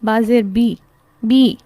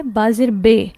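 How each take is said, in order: First: "بی" with a clear ee vowel; teacher modelling the right kasra; correct kasra sound. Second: "بے" with an ay vowel, the common mistake; teacher showing the error to avoid; wrong pronunciation. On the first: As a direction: sound out "با زیر بی" ending on ee. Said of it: "زیر کی sound add ہوگی تو کیسے پڑھا جائے گا". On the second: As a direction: demonstrate the wrong "بے" ending. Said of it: "یہاں پر جو غلط ادائیگی ہو جاتی ہے". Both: Shown as a demonstration.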